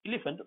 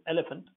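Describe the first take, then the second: First: Elephant with an initial "ee" sound, higher pitched; wrong first vowel. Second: Elephant with an open "eh" at the start; correct first vowel. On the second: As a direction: say elephant properly, opening on E as in let. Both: Shown as a demonstration. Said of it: "not elephant".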